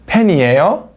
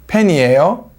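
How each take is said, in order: First: The voice rises at the end. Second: The same.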